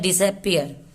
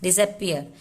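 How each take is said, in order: No difference in how they are said.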